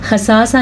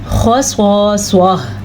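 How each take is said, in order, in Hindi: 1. ये हरूफ़ बारीक पढ़े जाते हैं। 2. ये हरूफ़ पुर पढ़े जाते हैं। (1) "खसासा नहीं पढ़ना इसको, खसासा गलत है" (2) "इसे भी पुर पढ़ना है"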